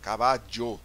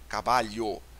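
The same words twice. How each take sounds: First: The double L sounds like a zh sound. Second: The double L sounds like Portuguese lh.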